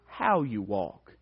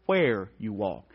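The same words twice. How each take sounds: First: "how" picked out against where; stress on how. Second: "where" slow, low and softer; stress on where. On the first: Preacher repeating his point on the verse, stress on "how". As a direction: put the weight on "how", falling away after. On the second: Preacher driving home what the verse means, slow stress on "where". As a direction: stretch "where" and let the rest settle low. Repeats how versus where contrast. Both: Shown as a demonstration.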